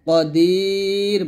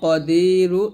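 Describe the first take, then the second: First: The word ends on a bare consonant. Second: The word ends with a short vowel sound. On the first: The reader stops at the end of the verse. "যদি আপনি এখানে থামেন, তাহলে এই নুনটা পড়ার দরকার নেই, কদির বলবো" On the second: The reader continues into the next verse. "আর যদি আমরা না থামি, তাহলে বলবো কদিরু"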